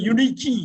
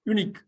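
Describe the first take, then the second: First: The word ends with an added vowel sound. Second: The word ends sharply on the k sound. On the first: The speaker calls it wrong. "சில பேர் யூனிக்கி யூனிக்கின்னு சொல்லுவாங்க" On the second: The speaker calls it right. "அப்படி சொல்லிடக்கூடாது"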